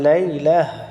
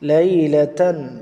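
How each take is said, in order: First: The word ends with a soft 'h' sound. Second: The word ends with a full 'tan' sound. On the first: The reading stops at this word. "এখানে যদি আপনি থামেন তাহলে লাইলাহ, এটাকে হা বানিয়ে থামতে হবে" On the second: The reading continues without stopping. "এটা হচ্ছে লাইলাতান"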